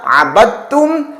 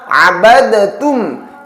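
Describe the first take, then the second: First: The d sound merges into the following t. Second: The d is pronounced separately from the t. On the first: The speaker calls it right. "langsung dibaca" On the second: The speaker calls it wrong. "tidak dibaca"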